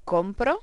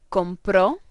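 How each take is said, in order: First: Compro stressed on COM, unstressed final o; stress on first syllable. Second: Compró with a loud, stressed final ó; stress on final syllable. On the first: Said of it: "If we don't use the accents here". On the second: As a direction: hit the last syllable of compró. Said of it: "they must have their accents". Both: Shown as a demonstration.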